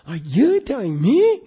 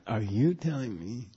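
First: The voice rises at the end. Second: The voice falls at the end. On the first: The speaker calls it wrong. "You don't say" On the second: The speaker calls it right. "He kind of go down in English too, you know? ... You go"

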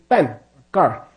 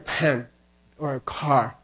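First: The p and k have no puff of air. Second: The p and k have a puff of air. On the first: "They say" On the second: "they don't have an aspirated equivalent normally. They don't say"

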